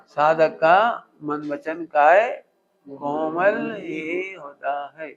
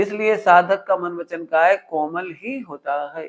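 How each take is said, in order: First: Each word drawn out slowly, to be repeated back; slow repeat for the class. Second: Said in the usual way. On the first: Shown as a demonstration. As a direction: spell it out slowly so they can repeat. (धीरे-धीरे दोहराने के लिए बोला गया) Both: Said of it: "क्या बोला?".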